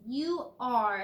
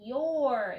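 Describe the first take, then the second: First: The words are said slowly as separate parts. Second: The words are said quickly, blended into one.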